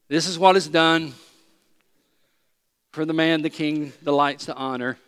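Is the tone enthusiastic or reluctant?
reluctant. It is said grudgingly, without enthusiasm.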